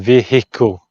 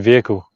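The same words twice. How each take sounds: First: The word is said with every sound in full. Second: The word is said in a reduced, shortened way. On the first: "Americans say vehicle. You kind of like say all the bits" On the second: "we just say vehicle"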